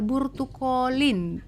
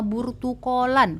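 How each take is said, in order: First: The word ends with an i vowel. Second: The word ends with an a vowel. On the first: "pakai kasroh" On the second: "pakai fathah"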